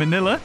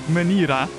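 First: The middle consonant is a clear L sound. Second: The middle consonant is an R-like sound. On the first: This is the English pronunciation. "in English it's Manila" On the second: This is the Japanese pronunciation. "they pronounce L's differently"

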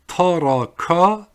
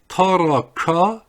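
The two takes are said the same way.

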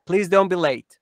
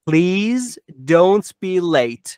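First: It is said at normal speed. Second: It is said slowly.

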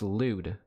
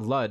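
First: The vowel rhymes with food. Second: The vowel rhymes with mud. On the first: The speaker calls it right. "It's pronounced lewd" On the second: The speaker calls it wrong. "It's not lud"

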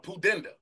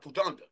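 First: The middle syllable sounds like 'den'. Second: The middle syllable sounds like 'dun'. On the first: The speaker calls it right. "Let me get it right" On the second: The speaker calls it wrong. "I said a pudunda"

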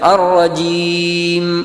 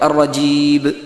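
First: The word ends in a short nasal m. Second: The word ends in a b sound. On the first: The speaker calls it right. "അൻഅംതയിൽ പറയുന്നത് പോലെ" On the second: The speaker calls it wrong. "അല്ലെങ്കിൽ ബ് ആയിരിക്കും"

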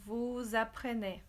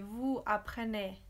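First: The s of vous links as a z. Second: The s of vous is not sounded. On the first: The speaker calls it right. "We make this link and we pronounce it as if there was a Z" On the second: The speaker calls it wrong. "We don't say"

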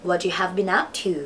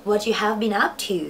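The two takes are said the same way.

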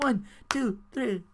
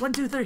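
First: The count is said slowly. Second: The count is said quickly.

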